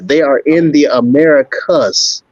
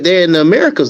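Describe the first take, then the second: First: It is said slowly and deliberately. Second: It is said at normal conversational speed.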